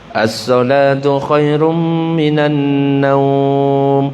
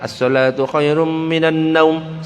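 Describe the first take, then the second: First: The vowel in the last word is held long. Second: The vowel in the last word is cut short. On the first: The speaker calls it right. "Yang benar itu harusnya panjang" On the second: The speaker calls it wrong. "salah itu"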